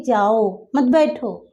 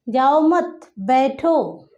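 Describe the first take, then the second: First: There is a pause right after जाओ. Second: There is a pause right after मत.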